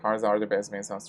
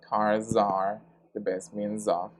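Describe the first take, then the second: First: The Z sounds are light and natural. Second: The Z sounds are exaggerated and drawn out. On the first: "we normally say" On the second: "I am exaggerating a little bit just for you to, to listen the sound"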